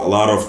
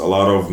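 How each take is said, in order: Both takes have the same delivery.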